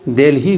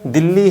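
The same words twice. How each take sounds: First: The name is said with an English pronunciation. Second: The name is said with a Hindi pronunciation. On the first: "pronunciation English में क्या होता है" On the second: "लेकिन हिंदी में क्या है"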